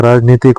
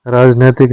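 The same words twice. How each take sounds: First: राजनीतिक with a long ee; correct vowel. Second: राजनैतिक with an ai sound; wrong vowel. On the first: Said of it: "होता है". (राजनीतिक में ई) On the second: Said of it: "नहीं होता है". (राजनैतिक में ऐ) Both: Shown as a demonstration.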